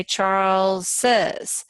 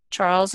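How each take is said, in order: First: "Charles's" slowly, with the extra syllable "iz" clearly heard; teacher stretching out "Charles's" so the class hears the new syllable. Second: Said in the usual way. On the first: Shown as a demonstration. Teacher showing the class the extra syllable, slowly. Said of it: "but we say Charles's". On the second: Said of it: "Charles is one syllable".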